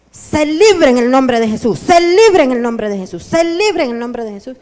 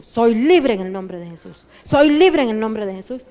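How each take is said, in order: First: Loud, forceful command, said three times; loud deliverance command. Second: Confident reply. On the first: Retold or imitated. Pastor commands freedom over the distracted believer, loud forceful declaration. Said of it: "y le dice". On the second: Shown as a demonstration. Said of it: "¿sabe cuál debe de ser su actitud?".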